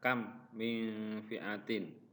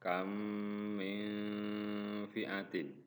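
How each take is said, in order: First: The m sounds are pronounced separately and clearly. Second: The m sounds merge with a nasal hum. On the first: The speaker calls it wrong. "tidak boleh dibaca" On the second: The speaker calls it right. "harus dibaca"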